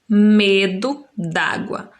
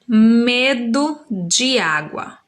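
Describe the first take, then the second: First: The words de and água merge into one. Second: The words de and água are said separately. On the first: "juntam-se dois sons num só" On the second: "o som de de água"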